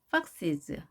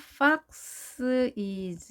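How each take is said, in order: First: It is said quickly as one word, weak ending. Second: The ending is said as a separate word. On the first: The speaker calls it right. "이렇게 한 단어로 빠르게 발음해야 되죠" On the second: The speaker calls it wrong. "fox is 이렇게 발음되지 않도록 조심하시고요"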